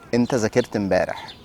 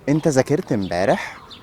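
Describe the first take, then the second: First: The voice falls at the end like a statement. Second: The voice rises at the end like a question. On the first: It states a fact. "I said this sentence as a statement" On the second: It asks a question. "with a questioning tone"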